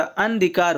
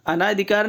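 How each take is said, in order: First: अनधिकार with no long naa; correct form अनधिकार. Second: अनाधिकार with long naa; wrong form अनाधिकार. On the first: Teacher correcting the class, अनधिकार as an-dhikaar. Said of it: "अनधिकार होता है". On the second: Teacher rejecting a misspelling, अनाधिकार with long naa. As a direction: lengthen the second vowel in अनाधिकार. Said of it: "अनाधिकार नहीं होता". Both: Shown as a demonstration.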